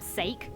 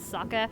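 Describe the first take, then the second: First: The word starts with an 'ay' vowel sound. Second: The word ends in an open 'eh' sound. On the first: The speaker calls it wrong. "It's so cringeworthy" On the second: The speaker calls it right. "people around the world mispronounce if they don't know how to speak Japanese is sucker"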